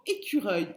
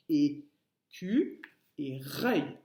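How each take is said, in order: First: Said in the usual way. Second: "écu et reuil" slowly broken into separate syllables. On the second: Shown as a demonstration. Teacher showing pupils the parts of squirrel, "écu et reuil" split syllable by syllable.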